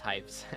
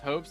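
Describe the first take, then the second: First: The vowel is an 'eye' sound. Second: The vowel is an 'oh' sound. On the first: The speaker calls it wrong. "I was pronouncing it as Hypes" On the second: The speaker calls it right. "it's Hopes?"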